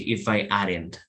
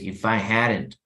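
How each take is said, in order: First: The h in hadn't is dropped. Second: The h in hadn't is pronounced. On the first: The speaker calls it wrong. "it would sound very strange if you say" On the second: The speaker calls it right. "you need to pronounce the H"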